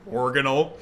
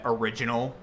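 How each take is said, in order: First: The word is said with a shortened middle. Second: The word is said in its standard form. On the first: The speaker calls it wrong. "I used to think that um that original was pronounced organal" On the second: The speaker calls it right. "it's pronounced original"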